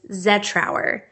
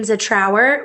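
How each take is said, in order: First: The stress is on the first syllable. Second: The stress is on the last syllable. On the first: The speaker calls it right. "the correct way to say my last name is Zetrower. Emphasis on the Z" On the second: The speaker calls it wrong. "with the emphasis on our"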